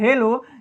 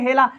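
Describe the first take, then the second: First: The word ends with an 'oh' vowel. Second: The word ends with an 'ah' vowel. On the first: The speaker calls it right. "ओ का उच्चारण होगा" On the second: The speaker calls it wrong. "हेला कभी नहीं पढ़ेंगे"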